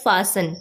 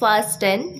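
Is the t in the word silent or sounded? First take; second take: silent; sounded. First: The t in the middle is silent. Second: The t in the middle is pronounced. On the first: The speaker calls it right. "इसकी correct pronunciation होती है fasten. यहाँ पे टी silent होता है" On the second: The speaker calls it wrong. "इसे बहुत से लोग बोलते हैं फास्टन"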